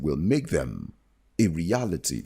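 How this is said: There is a pause before "a reality".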